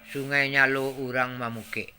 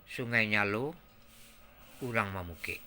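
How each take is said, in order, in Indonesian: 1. Dibacakan secara datar, tanpa pembawaan ekspresif. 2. Dibacakan dengan pembawaan ekspresif yang diolah. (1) "kalau kita membaca saja contohnya" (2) "Sekarang kita kita olah dia"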